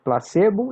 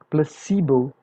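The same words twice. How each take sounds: First: The word is pronounced the Portuguese way. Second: The word is pronounced the English way. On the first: "we call it placebo in Portuguese" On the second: "we call it placebo in English"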